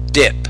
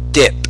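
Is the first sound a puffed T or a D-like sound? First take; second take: D-like; D-like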